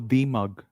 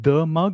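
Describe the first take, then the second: First: The word 'the' is said as 'thee'. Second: The word 'the' is said as 'thuh'. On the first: "or is it e?" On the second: "Is it a"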